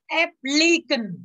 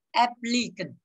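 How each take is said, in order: First: "Applicant" drawn out slowly, pitched higher, each syllable clear; slow pronunciation model. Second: Said in the usual way. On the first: Shown as a demonstration. Teacher modelling "Applicant" for students, slow and lifted.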